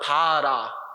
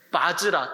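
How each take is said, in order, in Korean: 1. 두 음절이고 'j' 소리가 없어요. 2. 세 음절이고 'j' 소리가 있어요. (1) "바라라고 나오죠" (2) "원래 발음이 뭐다?"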